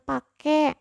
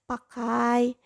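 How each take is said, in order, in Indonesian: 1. Kata itu berakhir dengan vokal e biasa. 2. Kata itu berakhir dengan diftong ai. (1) "diftong I se- sebagai E ... masyarakat umumnya menggun melafalkan dengan pakai" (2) "Seharusnya itu pakai"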